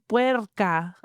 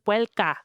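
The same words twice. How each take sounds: First: The consonant after 'pue' is an R sound. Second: The consonant after 'pue' is an L sound. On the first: "Instead of saying puerca" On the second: "with an L"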